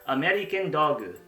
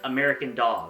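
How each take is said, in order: First: It is said with a Japanese accent. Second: It is said with an English accent.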